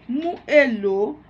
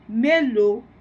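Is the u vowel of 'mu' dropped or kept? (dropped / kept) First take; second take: kept; dropped. First: Both words are said separately, keeping the u vowel. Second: The words merge into one, dropping the u vowel. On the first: "o verbo mu, né? Mais elo" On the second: "omitimos um, um fonema U, né? Que fica melô"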